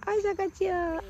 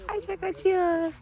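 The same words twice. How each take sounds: First: Put-on high playful call to a child; teasing the little girl as she runs, in a high singsong. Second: High stretched-out teasing call; repeating the tease to the little girl, high and slow; slower playful singsong. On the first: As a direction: tease her sweetly as she runs off. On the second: Acted. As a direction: draw the words out slowly, teasing. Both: Teasing the child running away.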